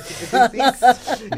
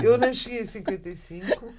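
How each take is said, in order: First: Louder, laughing through the words; laughing at own tense. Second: Said in the usual way. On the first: Real, not acted. Laughing as she teases herself about the historic present. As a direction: joke at her own slip, laughing.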